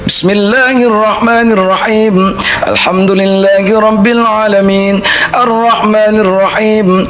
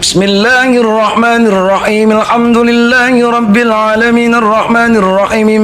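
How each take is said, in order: First: A breath is taken after each separate verse. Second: The verses run together without breathing between them. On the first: The reciter has a limited breath. "satu ayat, satu kali napas" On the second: The reciter has a long breath. "setiap ayat harus diwasal"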